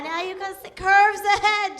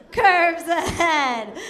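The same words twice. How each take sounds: First: Said in the usual way. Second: Slow, laughing through the words; slow giggling echo; laughing repeat. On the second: Pretend. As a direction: drag it out with a laugh.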